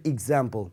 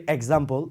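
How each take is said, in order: First: এক্সাম্পল opened with a short "ig" sound; corrected "ig" start on এক্সাম্পল; corrected pronunciation. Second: এক্সাম্পল opened with an "ek" sound; common mispronunciation. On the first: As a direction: say এক্সাম্পল as "ig-ZAM-pul", with initial i. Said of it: "না, এটার উচ্চারণটা হবে". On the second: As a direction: say এক্সাম্পল as "ek-zam-pol", with initial e. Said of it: "আমরা অনেকে এটাকে উচ্চারণ করি". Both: Shown as a demonstration.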